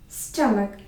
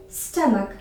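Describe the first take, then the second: The two takes are said the same way.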